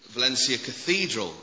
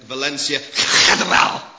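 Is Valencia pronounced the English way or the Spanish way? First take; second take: English; Spanish. First: Valencia is pronounced with an English accent. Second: Valencia is pronounced with a Spanish accent.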